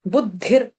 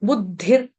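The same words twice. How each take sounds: The two takes are said the same way.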